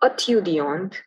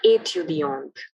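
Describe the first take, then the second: First: The first vowel is a plain French e. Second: The first vowel is a closed 'ay' sound. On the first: The speaker calls it wrong. "So it's not étudiant" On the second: The speaker calls it right. "but étudiant"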